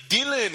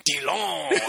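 First: Said in the usual way. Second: "Dylan" said the French way, much higher and stretched; mock French-dubbed "Dylan", light and amused; French dub pronunciation. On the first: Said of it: "the part when he's like". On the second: Friend imitates the French-dubbed movie line, amused and higher. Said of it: "it's like".

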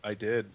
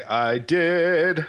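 First: Soft whispered confession. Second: Sung, belted like a musical line; dramatic sung version. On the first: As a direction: whisper it under your breath. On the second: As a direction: sing it out like an opera. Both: Shown as a demonstration. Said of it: "Or should I say".

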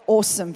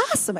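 First: Australian "awesome" with a rounded "aw"; Australian pronunciation, rounded first vowel in "awesome"; Australian accent. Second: American "awesome" with an open "ah"; mimicked American pronunciation, open first vowel in "awesome"; American accent. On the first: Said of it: "awesome versus awesome". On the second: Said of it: "say it like an American". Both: Shown as a demonstration.

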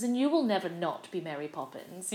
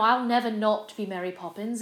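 First: Lightly imitated star, leaning on "you will"; stress on YOU WILL. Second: Lightly imitated star, leaning on "I'll"; stress on I'LL. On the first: Julie Andrews assuring her fellow Mary, stress on "you will". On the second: Julie Andrews speaking of herself, stress on "I'll". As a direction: point to yourself with a stressed "I'll", tune lifting at the end. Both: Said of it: "and she was like".

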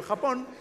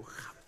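First: Blurting Japón out on a higher note; just toss out Japón without thinking; blurted answer. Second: Very soft, flat disbelieving Japón; manager's disbelief. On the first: Blurting Japón out to the Netflix people, a quick lifted answer. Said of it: "Yo, "Japón". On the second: The manager turning to him in disbelief, almost inaudible. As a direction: say Japón under your breath, stunned. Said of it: "Hasta mi repre me volteó a ver, dijo". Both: Retold or imitated.

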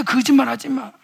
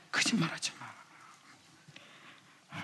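First: Said in the usual way. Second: Slow breathy whispered rebuke. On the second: Shown as a demonstration. Preacher whispering the rebuke to the congregation. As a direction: lean in and whisper it slowly.

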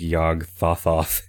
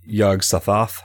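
First: Yog Thothoth with th for s; lisped name. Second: Yog Sothoth with a clear s; corrected name. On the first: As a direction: lisp Yog Thothoth, th sounds. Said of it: "I can never stop speaking with lisp". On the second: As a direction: say Sothoth with a crisp s. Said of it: "is it Thothoth or Sothoth". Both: Real, not acted.

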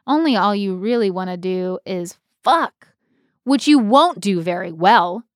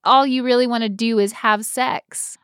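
First: Stage read of the original line with fuck; a light Betty reading; the script's version. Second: Said in the usual way. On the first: Shown as a demonstration. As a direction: give the line as written. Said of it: "what the script says". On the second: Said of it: "I guess we said".

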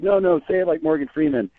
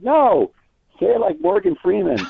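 First: Higher, mock-eager buddy goading; egging a friend on, pitched up; playful goading. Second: Much higher, eager retold plea to say it like Morgan; urging a star to do his famous voice, high and excited. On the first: Buddies urging a friend to do Freeman, playfully high. How buddies goad each other. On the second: Interviewer begging Morgan to do his voice, excitedly high.

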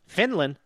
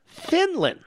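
First: Said in the usual way. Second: "Finland." jumped up high in mock wonder; mocking higher Finland. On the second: Shown as a demonstration. Host mocking the caller's Finland example, sarcastic lift.

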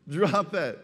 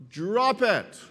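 First: Said in the usual way. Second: "drop it" with the word "drop" punched high and strong; emphatic. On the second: Shown as a demonstration. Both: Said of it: "the Greek word that translated unload means".

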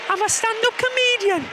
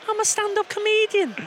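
First: High Geordie comedian voice; chirpy high Geordie comedian; Sarah Millican impression. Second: High Geordie comedian voice; lightly voiced Geordie comedian; Sarah Millican impression. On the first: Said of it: "I'm Sarah Millican". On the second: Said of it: "And then I turn into Sarah Millican".

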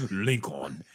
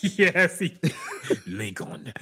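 First: "Lincoln" mimicked in the trailer's African accent, falling at the end, with a laugh; mocking the trailer's African accent, falling. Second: Laughing, mimicking the trailer's African accent on "Lincoln", rising at the end; mocking the African accent from the trailer, laughing. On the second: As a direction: parrot "Lincoln" in the actor's African accent through a laugh, pitch going up. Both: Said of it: "Why the fuck he say it like that".

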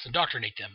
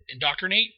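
First: Said in the usual way. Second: Rising, doubtful indoctrinate? sounded out; unsure try at a word. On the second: Real, not acted. Recapping the movie, unsure of a word: puzzled rise. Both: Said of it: "Yes, indoctrinate them".

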